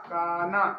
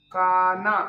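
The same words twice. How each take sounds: First: Said in the usual way. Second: Kanha called out louder with a rising end; first take of Kanha, projected to the class; first take louder, the second easing off; emphatic demo. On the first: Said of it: "teacher repeats word". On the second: Shown as a demonstration. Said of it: "teacher demonstrates word twice".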